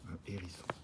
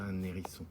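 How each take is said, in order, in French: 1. Un et hérisson se disent sans liaison. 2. Un se lie à hérisson avec un son n.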